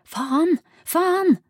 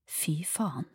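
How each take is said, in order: First: High, loud cry of frustration; frustrated yelling; screamed curse. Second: Hushed, whispered curse; stunned swearing in a whisper. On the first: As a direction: scream the swear word, rising on the repeat. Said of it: "skrek hun". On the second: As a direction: whisper it under your breath. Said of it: "hvisket Arias". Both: A narrator's reading.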